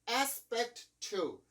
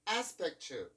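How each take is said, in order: First: Both T sounds are pronounced separately. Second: The two T sounds merge into one. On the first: The speaker calls it wrong. "aspect to 이렇게 발음을 해주지 않죠" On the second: The speaker calls it right. "aspect to 이렇게 발음을 해주고 있죠"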